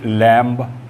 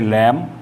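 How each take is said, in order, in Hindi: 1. अंत में b की ध्वनि सुनाई देती है। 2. यह शब्द m की ध्वनि पर खत्म होता है। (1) "ना पढ़कर" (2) "इसे लैम"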